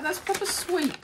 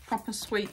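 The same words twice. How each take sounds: First: Much higher, squeaky cutesy take on proper sweet; playful high cutesy voice; put-on cutesy voice. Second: Said in the usual way. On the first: Echoes phrase in a put-on voice.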